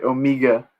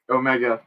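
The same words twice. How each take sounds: First: OMEGA as "oh-MEE-ga", imitated New Zealand accent. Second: Said in the usual way. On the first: Shown as a demonstration. Streamer jokingly correcting himself, OMEGA in a mock New Zealand accent. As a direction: say OMEGA the Kiwi way, with a tightened middle vowel. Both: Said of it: "sorry, Omega".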